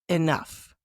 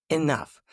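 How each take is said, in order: No difference in how they are said.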